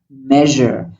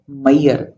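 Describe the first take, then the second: First: The middle has a buzzing 'zh' sound. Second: The middle lacks the buzzing 'zh' sound. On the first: The speaker calls it right. "It's zh, like a vacuum cleaner sound" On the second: The speaker calls it wrong. "It's not Mayer"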